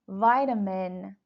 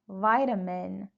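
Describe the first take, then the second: First: It is said with an American pronunciation. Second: The same.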